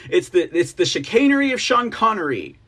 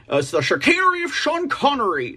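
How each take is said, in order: First: Said in the usual way. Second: Half-hearted Sean Connery accent, a touch higher; a lazy stab at a Scottish Sean Connery accent; admittedly weak Sean Connery accent attempt. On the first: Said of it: "That's about the best I could do". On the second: Shown as a demonstration. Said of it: "do a Sean Connery, uh, accent".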